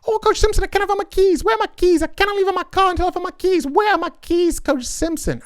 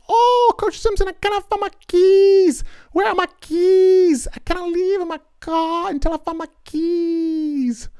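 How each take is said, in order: First: It is said fast. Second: It is said slowly.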